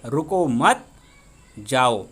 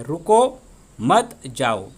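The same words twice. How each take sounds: First: रुको मत run together and rising, long pause, then जाओ dropped low; pause after मत. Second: Slow, रुको set apart by a pause, then मत जाओ; pause after रुको. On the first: Teacher reading the second sentence, pause after मत before जाओ. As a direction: break after मत, then let जाओ fall. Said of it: "अल्प विराम दिया है". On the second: Teacher showing the comma after रुको, pause before मत जाओ. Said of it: "उनके आगे यहाँ पर अल्प विराम". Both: Shown as a demonstration.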